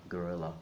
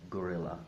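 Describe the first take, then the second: First: It is said with an English pronunciation. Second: It is said with an English pronunciation.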